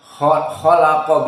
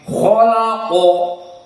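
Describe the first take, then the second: First: The kh sound is light and thin. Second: The kh sound is heavy and full. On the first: "khalaqa biasa" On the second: "tapi tafkhim khalaqo"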